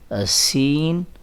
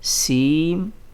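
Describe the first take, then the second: First: The word ends with a clear n sound. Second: The word ends with an m sound. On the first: "जो होना चाहिए था सीन का तो इस तरह से होना चाहिए था" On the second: "लेकिन यहाँ पर हम इस तरह से रीड करेंगे"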